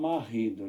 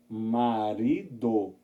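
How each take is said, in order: First: The R is a throaty French-style sound. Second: The R is a light single tap. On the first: The speaker calls it wrong. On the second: The speaker calls it right.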